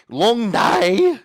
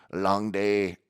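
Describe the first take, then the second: First: Very high, loud caricature shout; hammed-up retake. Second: Light, weary Irish quip; imitated Irish accent. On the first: Pet cremator on his work, high shouted mock voice. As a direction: yell it out cartoonishly. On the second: Pet cremator on his work, light Irish accent. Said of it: "he went Irish".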